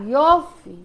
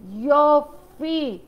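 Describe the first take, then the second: First: Said in the usual way. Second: יופי stretched very slowly, savoring it; a long slow appreciative יופי; drawn-out יופי. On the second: Shown as a demonstration.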